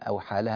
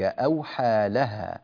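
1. يقع الفاصل مباشرة بعد 'aw'. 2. يقع الفاصل مباشرة بعد 'awha'. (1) "أو حالها دي يعني مش صحيح" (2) "بأن ربك أوحى لها"

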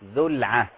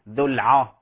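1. العين مرققة. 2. العين مفخمة. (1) "رقق العين" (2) "لا نفخم العين لمجاورتها للراء. لا نقول ذو العه"

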